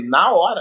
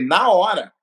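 First: "Na hora?" asked with a rising tune; questioning. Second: "Na hora." stated flat and falling; firm answer. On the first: Husband echoes his wife's worry as a question. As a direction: toss "Na hora?" back as a question. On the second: Husband firmly confirms he would replace her. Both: Retold or imitated.

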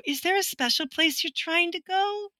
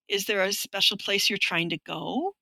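First: Patronizing, sing-song and higher pitched; condescending tone. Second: Said in the usual way. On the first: Retold or imitated. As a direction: talk down to her as if to a lost child. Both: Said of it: "they'll use this tone of".

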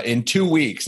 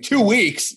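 First: Said in the usual way. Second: High-pitched disbelieving echo; retold outburst of disbelief, pitched way up; incredulous retort. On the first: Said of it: "And then they're like". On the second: Comedian replaying his reply to a two-week delay, incredulous. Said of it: "And I'm like".

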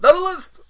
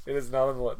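First: High, very loud mock-outraged shout; emphatic yell. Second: Said in the usual way. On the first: Co-host shutting down a question about Hackers, emphatic yell. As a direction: yell it out as a comic outburst. Co-host repeats the answer, yelling.

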